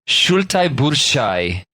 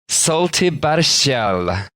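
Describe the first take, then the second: First: The name is said closer to Lithuanian sounds. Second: The name is said in an anglicized way. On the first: The speaker calls it right. "Let me try this again" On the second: The speaker calls it wrong. "which I've definitely pronounced wrong"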